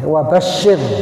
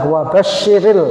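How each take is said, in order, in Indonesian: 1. Huruf r terakhir mati, tanpa vokal. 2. Huruf r terakhir menyambung ke vokal i. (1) "kalau dibaca tunggal itu ya pakai pakai sukun" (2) "di sini bacanya adalah wabashiril, karena di sini dilanjut"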